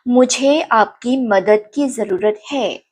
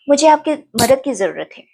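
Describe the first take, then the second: First: It is said at a slower pace. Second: It is said at a faster pace.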